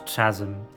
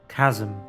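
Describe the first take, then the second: First: The word begins with a CH sound. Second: The word begins with a hard K sound. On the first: The speaker calls it wrong. "not chasm" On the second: The speaker calls it right. "Chasm, not chasm. It's a chasm"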